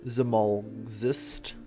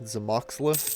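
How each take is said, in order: First: The L sound comes before the X sound. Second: The L sound comes after the X sound. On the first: The speaker calls it right. "I think is the correct way to pronounce it" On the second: The speaker calls it wrong. "is my bastardization of it"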